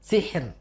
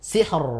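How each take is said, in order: First: The final r is light and thin. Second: The final r is heavy and thick. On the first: The speaker calls it right. "tapi tipis" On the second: The speaker calls it wrong. "tidak tebal"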